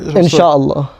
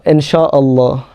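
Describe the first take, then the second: First: The word is said quickly. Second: The word is said slowly.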